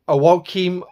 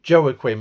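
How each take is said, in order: First: The name begins without a J sound. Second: The name begins with a J sound. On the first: "or however you pronounce the word" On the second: "I keep pronouncing it with a J"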